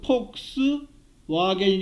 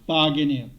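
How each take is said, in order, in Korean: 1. 두 번째 단어는 W 소리로 시작해요. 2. 두 번째 단어는 V 소리로 시작해요. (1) "폭스 와겐이 아니라"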